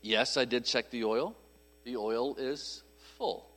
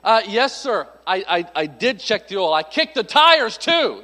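First: Low, soft, held-back answer; restrained, not sarcastic. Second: Hammed-up sarcasm, punching the last words; sarcastic. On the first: Acted. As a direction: rein it in, slowing and softening to the end. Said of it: "but I was not". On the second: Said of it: "I wanted to be sarcastic".

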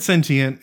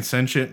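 First: "sentient" with the T sounded, SEN-tee-ent. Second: "sentient" as SEN-shent, T turned to sh. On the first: Recalling own old habit, SEN-tee-ent for "sentient". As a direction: say "sentient" in three syllables. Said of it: "see, I said sentient". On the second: Quoting how everyone else says it, SEN-shent for "sentient". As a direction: say "sentient" in two syllables. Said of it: "everyone else was saying sentient". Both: Shown as a demonstration.

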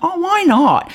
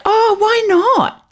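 First: High New Zealand "Oh, why not?"; New Zealand accent. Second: High, slow New Zealand "Oh, why not?"; New Zealand accent. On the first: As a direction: say it again in a Kiwi accent. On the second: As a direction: drawl it in a Kiwi accent. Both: Retold or imitated. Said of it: "in her most New Zealand accent".

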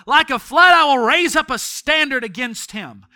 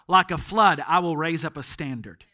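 First: Verse cried out higher and loud; shouted verse. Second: Said in the usual way. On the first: Acted. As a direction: declare the verse at full force. Preacher shouts the verse at climax.

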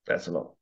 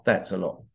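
First: Murmured "That's a lot", dropped low and soft; quiet repeat. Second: Said in the usual way. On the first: Real, not acted. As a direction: lower and much softer, sinking.

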